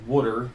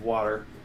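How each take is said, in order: First: It is said in a South Philly accent. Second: It is said in a standard accent.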